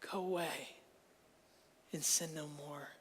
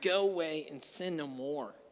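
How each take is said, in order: First: It is said in a warm, compassionate tone. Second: It is said in a harsh, condemning tone. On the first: The listener is free and can start a new life. The speaker calls it right. "looks at her with compassion and love and says" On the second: The listener is a terrible person who will fail. The speaker calls it wrong. "with our previous idea of what judgment is, it sounds like"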